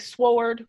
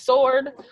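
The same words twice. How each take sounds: First: The word is said with a W sound. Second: The word is said without a W sound.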